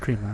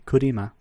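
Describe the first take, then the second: First: It is said with a plain English pronunciation. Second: It is said with a Japanese-style vowel inserted.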